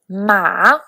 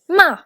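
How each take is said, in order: First: The pitch dips low, then rises. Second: The pitch falls sharply from high. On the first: "for the third tone" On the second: "for the fourth tone"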